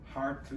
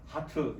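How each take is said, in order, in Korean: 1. 미국 영어 억양으로 말한 거예요. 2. 한국 억양으로 말한 거예요. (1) "미국 사람한테는 heart 이렇게 말하고" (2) "한국 사람한테는 heart 이렇게 말해요"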